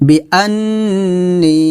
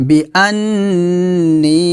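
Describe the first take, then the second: Both takes have the same delivery.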